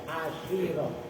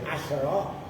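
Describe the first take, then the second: First: The sh sound is followed by an i vowel. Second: The sh sound has no vowel after it. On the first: "boleh dibaca kas kasroh" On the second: "Shinnya boleh dibaca apa namanya sukun"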